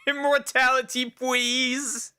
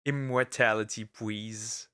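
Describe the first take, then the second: First: High, pleading little voice; squeaky begging voice. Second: Said in the usual way. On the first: Pretend. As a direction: beg for it in a tiny high voice. Begging the ancients in a silly voice.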